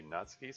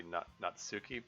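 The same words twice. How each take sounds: First: "Natsuki" with the stress on the first syllable; corrected pronunciation. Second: "Natsuki" with the stress on the second syllable; old mispronunciation. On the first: Reader giving the correction, "Natsuki" stressed early. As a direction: say "Natsuki" as NAHTS-kee, middle vowel swallowed. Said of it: "someone correct me, it should be Natsuki". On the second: Reader showing how they used to say it, "Natsuki" stressed late. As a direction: say "Natsuki" as nat-SOO-kee. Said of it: "I've been mispronouncing, uh, names in the past". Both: Shown as a demonstration.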